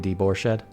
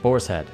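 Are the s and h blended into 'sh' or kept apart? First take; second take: blended; kept apart. First: The s and h blend into one sh sound. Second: The s and h are said as separate sounds. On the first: The speaker calls it wrong. "not sh" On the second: The speaker calls it right.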